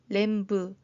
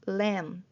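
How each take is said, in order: First: A b sound is heard at the end. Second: The word ends on the m sound. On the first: The speaker calls it wrong. "이게 아니고" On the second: The speaker calls it right. "B가 다 소리가 나지 않았습니다"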